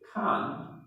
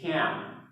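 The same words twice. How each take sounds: First: It is said with a British English vowel. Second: It is said with an American English vowel. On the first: "in England we generally... There is a tendency to speak can" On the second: "While in American English, it's more common to say can"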